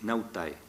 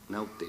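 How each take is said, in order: First: The word ends in the diphthong ae. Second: The word ends in a plain e vowel. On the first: This is not how it was said in the Middle Ages. "nadie hablaba de marineros" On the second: This is how it was said in the Middle Ages.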